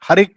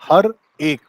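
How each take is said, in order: First: The two words are linked into one unit. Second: The two words are said separately. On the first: "हर एक कर दिया है उसे" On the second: "ऐसे नहीं गाया इसको कि हर एक"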